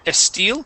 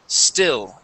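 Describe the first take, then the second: First: An extra vowel sound comes before the S. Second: The word begins directly with the S sound. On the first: The speaker calls it wrong. "So we want to take off that E" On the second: The speaker calls it right. "only focus on that S"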